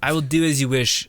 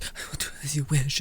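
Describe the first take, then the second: First: A fuller, mock-formal "I will do as you wish"; mock solemn vow. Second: Soft, quick, meek little yes-sir reply; meek compliance. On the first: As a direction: declare "I will do as you wish" with hammed-up gravity. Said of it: "What are you?". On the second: Retold or imitated. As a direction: mumble "I will do as you wish" fast and small, like a pushover. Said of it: "Then there's this where he's like".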